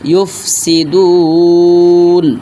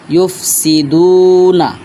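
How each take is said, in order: First: The word stops on n with a lengthened vowel before it. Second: The word ends with a short vowel after n. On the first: The reader stops at the end of the verse. "যদি আমরা থামি তাহলে হবে ইউফসিদুন, নুনের উপরে সাকিন হবে, লম্বা হবে তিন আলিফ" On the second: The reading continues without stopping. "এখানে আছে ইউফসিদুনা"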